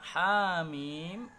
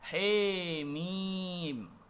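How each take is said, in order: First: The vowel after h is an open a. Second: The vowel after h is a full e. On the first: "dibaca Hamim dengan bil fathi, yaitu dengan memfathahkan huruf ha-nya" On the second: "dengan bi imalatin kubra, dengan membaca Hamim menjadi Hemim"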